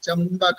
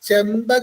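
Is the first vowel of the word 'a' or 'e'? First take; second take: a; e. First: The first syllable has the vowel 'a'. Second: The first syllable has the vowel 'e'. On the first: The speaker calls it right. "ചമ്പകാണ് ശരിക്ക്... ചായാണ്, ചേ അല്ല" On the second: The speaker calls it wrong. "ചെമ്പക എന്ന് ചൊല്ലും. അത് പാടില്ല"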